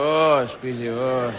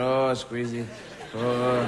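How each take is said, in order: First: Lightly voiced chef, low and cooing; mock chef squeezing. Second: Lower, cooing chef testing fruit, laughing; mock French chef. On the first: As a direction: coo over the fruit like a TV chef. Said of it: "where you go in and go". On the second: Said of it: "French chefs do on television".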